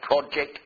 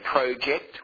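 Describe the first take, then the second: First: It is said with the American pronunciation. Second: It is said with the older Australian pronunciation. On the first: "all American pronunciations" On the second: "we used to say project"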